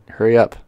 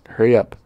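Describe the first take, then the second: No difference in how they are said.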